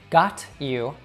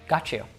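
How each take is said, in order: First: The t and y sounds stay separate. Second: The t and y merge into a ch sound.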